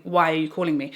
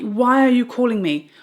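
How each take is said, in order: First: Said in the usual way. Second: Loud exasperated question. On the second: Retold or imitated. Loud retelling vs calm retelling.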